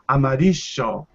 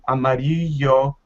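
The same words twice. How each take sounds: First: The ll is said the Argentine way. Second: The ll is said as a y sound. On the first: "if you go to Argentina, you can impress everyone by saying" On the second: "the most common sound that you hear is the y sound"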